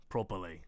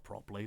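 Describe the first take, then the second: First: Australian "Properly", the r barely there, lazy vowels. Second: Said in the usual way. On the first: Shown as a demonstration. Mocking how Australians say "Properly", low Australian accent. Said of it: "They say properly". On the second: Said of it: "It's not properly".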